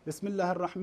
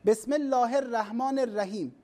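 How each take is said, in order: First: "بسم الله الرحمن" said correct but without tajwid; plain learner's "بسم الله الرحمن"; non-native reading. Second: "بسم الله الرحمن الرحيم" with full native tajwid; reciting "بسم الله الرحمن الرحيم" with proper tajwid; native reading. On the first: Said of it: "من ناحية صحة القراءة صحيح". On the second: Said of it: "هذه الكلمة". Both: Shown as a demonstration.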